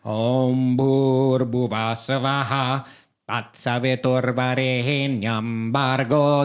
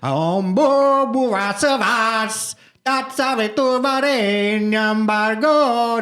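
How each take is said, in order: First: The second word sounds like 'bhur', endings kept. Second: The second word sounds like 'bo', endings clipped. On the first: This is the familiar version. "that's the traditional" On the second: This is an older, unfamiliar version. "first one is so goofy sounding. And this is like the proto Gayatri Mantra"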